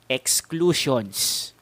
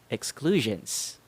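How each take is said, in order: First: The unstressed vowels are full and clear. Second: The unstressed vowels are reduced to schwa. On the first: The speaker calls it wrong. "how Filipinos would usually pronounce it" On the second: The speaker calls it right. "how I pronounce it"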